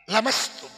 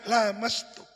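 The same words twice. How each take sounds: First: The first vowel is short. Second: The first vowel is long. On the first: "bila alifin"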